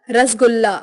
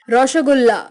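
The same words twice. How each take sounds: First: Said in the usual way. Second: Rounded O and SH in रसगुल्ला; Bengali pronunciation. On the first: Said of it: "Hindi उच्चारण". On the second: Shown as a demonstration. Teacher showing Bengali speech, रसगुल्ला as roshogulla. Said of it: "Bengali उच्चारण".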